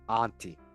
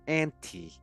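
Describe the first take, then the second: First: The first syllable does not sound like Ann. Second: The first syllable sounds like the name Ann. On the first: "rather than" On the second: "The dolls seem to pronounce Auntie"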